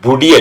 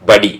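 First: The first vowel sounds like oo. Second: The first vowel sounds like uh. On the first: The speaker calls it wrong. "ബുഡി അല്ല" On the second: The speaker calls it right. "ബുഡി അല്ല ബഡി"

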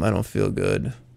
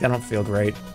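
First: It is said in a put-on, whiny sick voice. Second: It is said in a plain, normal voice.

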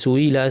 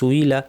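The two takes are said the same way.

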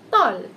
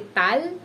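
First: The vowel is neither short nor long A. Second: The vowel is a short A sound. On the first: The speaker calls it right. "we pronounce this as tall" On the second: The speaker calls it wrong. "And we don't say tal"

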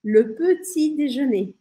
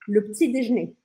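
First: It is said slowly and carefully. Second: It is said fast, dropping a vowel.

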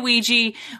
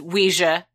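First: The word is said to rhyme with squeegee. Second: The word is said not rhyming with squeegee. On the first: This is the form the speakers grew up saying. "We say Ouija" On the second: This is the technically correct form. "technically it's Ouija"

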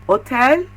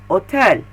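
Both takes have the same delivery.

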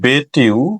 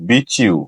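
First: A plain t sound comes before 'you'. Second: The t and 'you' merge into ch. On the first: The speaker calls it wrong. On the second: The speaker calls it right.

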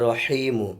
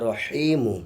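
No difference in how they are said.

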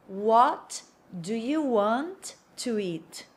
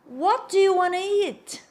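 First: It is said slowly, word by word. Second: It is said at a quick, natural pace.

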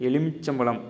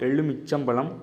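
No difference in how they are said.

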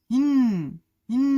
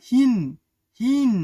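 No difference in how they are said.

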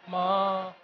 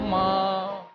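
No difference in how they are said.

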